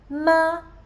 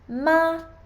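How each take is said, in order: First: The pitch stays high and level throughout. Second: The same.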